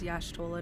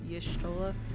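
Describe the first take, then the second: First: The name starts with the sound 'yash'. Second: The name starts with the sound 'yish'. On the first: The speaker calls it right. "That's technically correct" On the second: The speaker calls it wrong.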